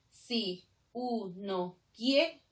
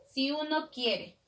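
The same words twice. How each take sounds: First: "Si uno quiere" very slow, broken into syllables; hiato, vowels separated. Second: "si uno quiere" with "si" and "uno" run together; vowels joined. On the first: Teacher breaking the sinalefa, "Si uno quiere" in separate slow syllables. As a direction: pause between "Si" and "uno", each syllable alone. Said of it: "Rompe la sinalefa". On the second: Teacher showing a sinalefa, "si uno quiere" linked smoothly. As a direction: glide from "si" straight into "uno", measured pace. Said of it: "se une". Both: Shown as a demonstration.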